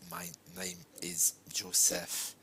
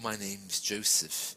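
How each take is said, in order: First: It is said flatly and mechanically, like a robot. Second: It is said very fast with no gaps. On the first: The speaker does not connect with the listener. "if you speak like a robot, like this" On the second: The listener finds it hard to understand. "speaking very fast, without the spaces"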